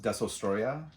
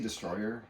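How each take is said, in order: First: The name ends with a 'ya' sound. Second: The name ends with an 'er' sound. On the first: The speaker calls it right. "I believe it's pronounced Desostroya" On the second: The speaker calls it wrong. "but I always say Destroyer"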